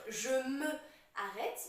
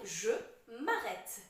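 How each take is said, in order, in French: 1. La voyelle de 'me' est prononcée entièrement. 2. La voyelle de 'me' est supprimée et liée. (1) "au lieu de dire" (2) "il faut dire"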